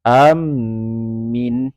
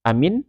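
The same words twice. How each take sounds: First: The m sound is doubled and held. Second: The word is said short, with nothing lengthened. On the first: It means a guarantee. "bila mana mimnya bertasdid" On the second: It means safe or made safe. "kalau seandainya dipendekkan"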